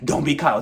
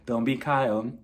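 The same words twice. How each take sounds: First: The phrase is said loudly, like yelling. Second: The phrase is said calmly and very quietly. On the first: The remark is made to seem like an attack. "making it seem like Garcelle was really trying to like yell at her" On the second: The remark was actually harmless. "Just calmly and, you know, just like that, like very quiet"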